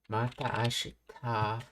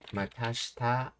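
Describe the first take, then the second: First: The two words are said separately, both a sounds kept. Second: The words merge, dropping one a sound.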